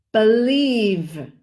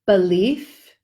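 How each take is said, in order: First: Believe with a long buzzing V; exaggerated V. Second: Belief with a sharp unvoiced F; exaggerated F. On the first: Teacher exaggerates the buzzing V ending. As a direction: drag out the final V of believe. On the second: Teacher exaggerates the F ending. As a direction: hiss the final F of Belief. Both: Shown as a demonstration. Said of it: "I'm exaggerating just to show the difference".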